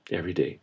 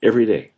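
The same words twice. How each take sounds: First: "every day" repeated much softer; soft echo. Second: Said in the usual way. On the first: Real, not acted. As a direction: let the repeat fall away to near silence. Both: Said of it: "he's got something to say".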